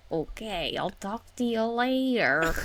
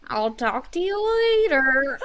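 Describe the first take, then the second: First: Lightly voiced old lady, drawn-out goodbye; a hint of old lady, stretching out the last words. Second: Higher, slow, hammed-up old-lady voice. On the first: Aunt saying goodbye, lightly imitated old lady. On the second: Niece mimicking her aunt's goodbye, exaggerated old lady. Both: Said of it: "like an old lady".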